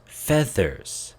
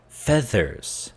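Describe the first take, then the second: Both takes have the same delivery.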